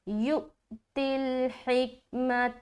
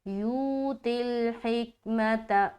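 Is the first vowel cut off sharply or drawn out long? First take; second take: cut off; drawn out. First: The first vowel is cut off with a catch. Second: The first vowel is drawn out long. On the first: The speaker calls it right. "यहाँ पर हमजाए साकिना का झटका करना है।" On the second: The speaker calls it wrong. "वो मद्दा कर रहे हैं, जो कि गलत है।"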